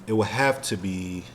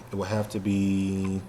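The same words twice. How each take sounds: The two takes are said the same way.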